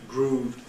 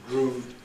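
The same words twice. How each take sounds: No difference in how they are said.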